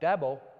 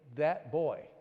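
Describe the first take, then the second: First: The words blur together into one word, Dabo. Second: Both words are said clearly and separately. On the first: "it would come out" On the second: "he would try to say"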